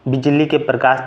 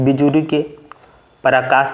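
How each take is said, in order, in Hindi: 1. दोनों में से किसी भी शब्द में अतिरिक्त स्वर नहीं जोड़े जाते। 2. bijli और prakash में अतिरिक्त स्वर जोड़े जाते हैं। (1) "शुद्ध" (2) "अशुद्ध"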